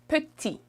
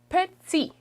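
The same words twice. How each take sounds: First: The T is sharp and clean. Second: The T has a buzzing sound. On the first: "in international French or standard French would be more petit" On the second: "in Quebec, people would say more petit"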